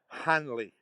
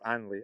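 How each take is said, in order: First: The word begins with an audible H sound. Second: The word begins without any H sound. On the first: "I never say Hanley" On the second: "I seem to drop the H's"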